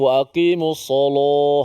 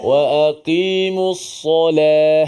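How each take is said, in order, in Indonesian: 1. Bunyi L-nya berat dan tebal. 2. Bunyi L-nya ringan dan tipis. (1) "kalau tebal lagi" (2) "kita wa aqimus salah. Sebut"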